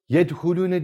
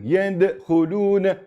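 First: The stopped consonant is plain, without an echo. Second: The stopped consonant bounces with an echoing release. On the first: The speaker calls it wrong. "Yedhulune demiyorum" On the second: The speaker calls it right. "Orada bir vurgu yapıyorum"

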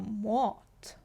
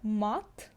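First: The vowel is a, rounded toward o. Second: The vowel is a plain open a. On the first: The speaker calls it right. "Наче кажу А, але більш наближено до О" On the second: The speaker calls it wrong. "я кажу не мат"

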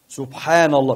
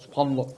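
First: It is said slowly, with a clear n. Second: It is said fast, the n swallowed.

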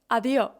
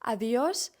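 First: The word ends without an s sound. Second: The word ends with an s sound.

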